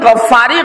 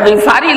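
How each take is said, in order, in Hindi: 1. पहला स्वर 'a' है, और 'f' दोहरा है। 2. पहला स्वर 'i' है, और 'f' एक है। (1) "गलती से लोग इनको पढ़ते हैं गफ्फारी, गफ्फारी गलत है" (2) "गिफारी लफ्ज है जी"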